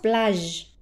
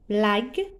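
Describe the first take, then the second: First: The g is soft, like the s in measure. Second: The g is hard, like the g in go.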